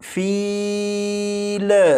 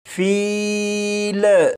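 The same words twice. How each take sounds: No difference in how they are said.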